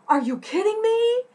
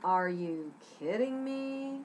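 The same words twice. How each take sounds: First: High, loud, thrilled disbelief; over-the-top delighted shriek; excited. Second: Slow, dry sarcasm; sarcastic disbelief, drawn out. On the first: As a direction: squeal it like amazing news. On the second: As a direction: drag it out, unimpressed. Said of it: "Maybe you need it sarcastic". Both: Shown as a demonstration.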